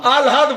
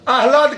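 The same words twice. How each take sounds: First: The h sound comes after the l. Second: The h sound comes before the l. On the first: This is how people usually say it. The speaker calls it wrong. "आप आह्लाद बोलेंगे" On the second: Few people are able to say it this way. The speaker calls it right. "आह्लाद कितने लोग बोल पाते हैं?"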